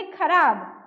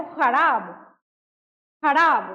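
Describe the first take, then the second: First: खराब said with an aspirated kh; खराब with a breathy stop kh, as in khana; plain kh sound. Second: खराब said with a throaty rasping x; खराब starting with a scraped ख़ from the back of the throat; nukta kh sound. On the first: Teacher shows students the reading without nukta, aspirated kh. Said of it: "इसमें अगर ये ना रहे". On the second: Teacher demonstrates the nukta sound to students, throaty x. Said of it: "और ये लग गया". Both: Shown as a demonstration.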